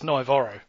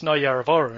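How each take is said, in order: First: The middle syllables of the name are dropped. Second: All syllables of the name are pronounced. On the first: The speaker calls it wrong. "according to, to Mitchell and Cano. Literally every time they just shortened it" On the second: The speaker calls it right. "I don't think it's Naiyaravoro anymore"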